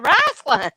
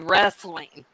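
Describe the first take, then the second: First: It is said Southern-style, sounding like wrassling. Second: It is said with a standard West Coast vowel.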